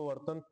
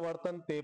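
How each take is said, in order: First: The word ends without the final e vowel. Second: The word ends with a long e vowel. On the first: "वर्तन्त पण म्हणू शकतो" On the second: "उच्चारण करताना वर्तन्ते पण म्हणू शकतो"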